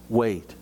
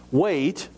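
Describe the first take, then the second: First: Gentle, reassuring wait; gently. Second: Incredulous, rising Wait?; indignant echo of Wait?. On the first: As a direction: let the word settle gently. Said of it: "the master so gently said". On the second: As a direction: throw Wait? back in disbelief. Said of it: "my indignant reply". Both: A narrator's reading.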